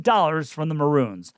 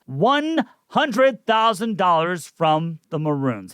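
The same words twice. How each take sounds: First: Said in the usual way. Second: One hundred thousand dollars said slowly, weight on hundred; slow emphatic repeat. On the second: Acted. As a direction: spell out the sum word by word, hitting hundred.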